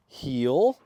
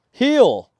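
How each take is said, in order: First: Said in the usual way. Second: "Heel" much higher and louder, stern; stern command. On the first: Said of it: "that was a horrible heel". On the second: Shown as a demonstration. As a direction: snap "Heel" sternly to fix the dog. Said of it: "a little more stern voice".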